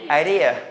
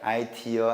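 First: It is said with English-style stress and vowels. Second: It is said with Korean-style, evenly spaced syllables. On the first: The speaker calls it right. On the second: The speaker calls it wrong.

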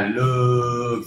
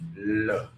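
First: The vowel is stretched out long. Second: The vowel is kept short and calm. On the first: The speaker calls it wrong. "Không cần nói dài là look" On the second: The speaker calls it right. "nhưng mà look"

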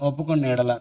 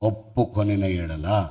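First: The verb is said in a shortened, casual form. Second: The verb is said in its full, careful form. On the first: The speaker calls it wrong. "ఫ్యాషన్గా చదువుతున్నాం. ఒప్పుకున్న ఎడల కాదు" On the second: The speaker calls it right. "మంచిగా ఏంది పాకు ఒత్తు పెట్టు"

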